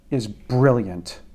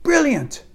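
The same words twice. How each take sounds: First: Said in the usual way. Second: "Brilliant" sung out very high in a mock British accent, falling; mock a Brit's "Brilliant", way up high; faux British accent. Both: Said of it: "My faux British accent".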